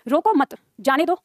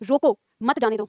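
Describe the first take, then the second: First: There is a pause after the second word. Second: There is a pause after the first word. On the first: Let the person go. "मतलब उसे जाने दो, छोड़ दो" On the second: Stop the person from leaving. "मतलब पकड़ लो या रोक लो"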